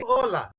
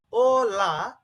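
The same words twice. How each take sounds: First: Said in the usual way. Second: "O, La" as two separate syllables; split into syllables. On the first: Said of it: "they're combining and producing Ola". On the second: Shown as a demonstration. Teacher splitting a word for learners, "O, La" syllable by syllable. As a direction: break "O, La" apart, each part held clearly. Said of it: "the second part is La".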